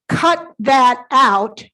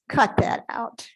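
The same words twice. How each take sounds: First: It is said in a firm, serious tone. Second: It is said in a light, joking tone. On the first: The speaker really means it. "then it's a different context" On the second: The speaker is not really serious. "I'm not serious. You're joking with me"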